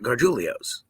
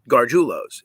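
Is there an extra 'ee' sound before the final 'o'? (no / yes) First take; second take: yes; no. First: An extra 'ee' sound comes before the last 'o'. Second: No extra sound comes before the last 'o'. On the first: The speaker calls it wrong. "it's not Gargiulios. It would be Gargiulios if there was an I before the last O" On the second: The speaker calls it right. "It is just Gargiulos"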